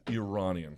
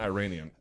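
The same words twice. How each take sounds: First: "Iranian" said ih-RAH-nee-an, short I, open A; correct pronunciation. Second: "Iranian" said eye-RAY-nee-an, long I and A; mock the wrong "Iranian" with eye-RAY; wrong pronunciation. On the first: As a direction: model the right "Iranian" with ih-RAH. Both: Shown as a demonstration. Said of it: "Say it right".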